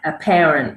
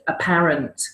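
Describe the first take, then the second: First: It is said in an American accent. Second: It is said in a non-American accent. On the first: "American accent to me would say a, a parent, which sounds like a parent" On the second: "to me, I pronounce that word apparent"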